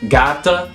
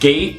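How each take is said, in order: First: The word ends with an extra vowel sound. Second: The word ends on the t sound. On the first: This is the older pronunciation. "used to be pronounced" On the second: This is the modern pronunciation. "words like"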